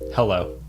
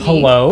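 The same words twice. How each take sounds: First: The word is said flat, with no excitement. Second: The word rises like a question. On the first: The caller is not welcomed. The speaker calls it wrong. "just no no excitement" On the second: The caller seems unknown to the answerer. The speaker calls it right.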